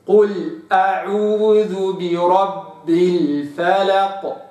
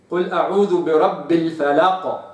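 First: Chanted, very slow recitation of قل أعوذ برب الفلق with الفلق drawn out and precise; chanted, intone قل أعوذ برب الفلق as in tajweed; slow Quranic chant of الفلق; chanted correct recitation. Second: الفلق said with the wrong vowel; wrong reading. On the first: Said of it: "وإنما". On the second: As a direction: read قل أعوذ برب الفلق the mistaken way. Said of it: "ما أقولش الفلق". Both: Shown as a demonstration.

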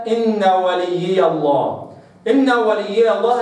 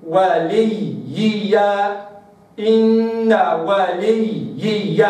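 First: إن وليي الله with the ya's blurred; beginner reading. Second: وليي slow with three clear ya's; correct slow reading. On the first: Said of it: "هكذا ما فيش ياءات". (قراءة المبتدئين بلا ياءات) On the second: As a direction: draw out each ya in وليي. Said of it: "هكذا". (وليي ببطء بثلاث ياءات) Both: Shown as a demonstration.

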